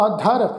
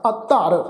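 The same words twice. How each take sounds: First: ਅਧਰ with a short single ਧ, no adhak; undoubled dh. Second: ਅਧਰ as ਅੱਧਰ, held double ਧ; doubled dh. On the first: Teacher warns congregation against this reading, single ਧ in ਅਧਰ. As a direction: pass lightly over the ਧ in ਅਧਰ, undoubled. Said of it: "ਇਸ ਢੰਗ ਨਾਲ ਉਚਾਰਨ ਨਹੀਂ ਕਰਨਾ". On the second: Teacher corrects the reading for congregation, doubled ਧ in ਅਧਰ. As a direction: stop briefly on the ਧ of ਅਧਰ, geminated. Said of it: "ਧੱਦੇ ਦੇ ਉੱਪਰ ਅਧਿਕ ਲਾ ਕੇ". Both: Shown as a demonstration.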